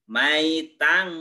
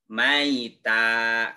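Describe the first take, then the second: First: The word ends with an n sound. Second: The word ends on a vowel without n. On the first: The reader continues to the next word. "kalau dilanjut" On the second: The reader stops after this word. "kalau berhenti"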